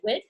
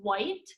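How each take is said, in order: First: The vowel is a short 'i', like 'wit'. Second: The vowel is a long 'i', like 'white'. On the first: The speaker calls it wrong. "I pronounced it a wit" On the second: The speaker calls it right.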